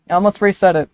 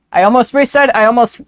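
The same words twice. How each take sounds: First: Said in the usual way. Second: High, loud eager detective voice; Gumshoe voice. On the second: Acted. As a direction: blurt it like a gung-ho cop. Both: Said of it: "stuck in gumshoe voice now".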